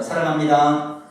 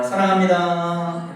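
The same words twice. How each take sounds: First: Put-on "사랑합니다" said slowly and loudly as a formal old greeting; bow and say "사랑합니다" the old way, slow and loud; old-style greeting. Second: "사랑합니다" stretched out very slowly and loudly; next-style greeting. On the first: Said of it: "이거 옛날에 이렇게 많이 했잖아요". (옛날식으로 천천히 크게 "사랑합니다") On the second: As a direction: drag out each syllable of "사랑합니다". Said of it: "자, 그다음 어떻게?". (아주 천천히 늘여서 "사랑합니다") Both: Shown as a demonstration.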